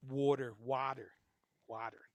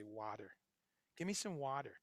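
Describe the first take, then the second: First: Water with a rounded aw vowel and an r-coloured ending; Midwest-Jersey water. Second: Water with an open ah vowel, said quietly; California water. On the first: Host showing his own odd way of saying water. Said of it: "So I say water, kinda funny". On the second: Host contrasting the California way of saying water. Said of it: "people that say". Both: Shown as a demonstration.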